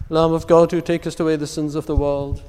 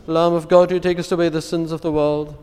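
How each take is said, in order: Both takes have the same delivery.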